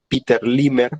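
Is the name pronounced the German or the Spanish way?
Spanish. The name is said with Spanish sounds, ending in 'er'. "pronunciado a lo castellano"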